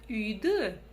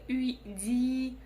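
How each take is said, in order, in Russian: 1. Последний гласный звучит между твёрдым и мягким. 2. Последний гласный звучит мягко, как и. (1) "палочка с точкой будет звучать ровно так, как надо для казахского языка" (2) "Буква «и» будет очень мягкая"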